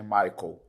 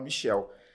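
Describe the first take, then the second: First: The name is said the English way, like 'my-kel'. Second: The name is said with a 'sh' sound, 'mi-shel'. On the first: This is the English pronunciation of the name. "como se pronuncia, como escreve em inglês" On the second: This is how the family came to say the name. "ela não sabia falar Michael, falava Michel"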